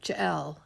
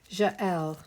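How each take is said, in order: First: The name is said in a plain English accent. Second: The name is said in a French accent. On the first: "I always say it Jael" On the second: "I have to say it with a French accent"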